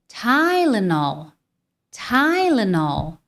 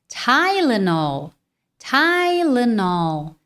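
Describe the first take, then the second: No difference in how they are said.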